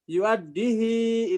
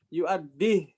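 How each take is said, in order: First: The final vowel is lengthened after the h. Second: The word ends on the h with no vowel. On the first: "itu Imam Hafs" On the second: "enggak pakai silah"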